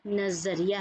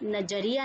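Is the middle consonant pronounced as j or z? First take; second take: z; j. First: The middle consonant is a z sound. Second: The middle consonant is a plain j sound. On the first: The speaker calls it right. "ये नज़रिया है" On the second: The speaker calls it wrong. "ये नजरिया नहीं है"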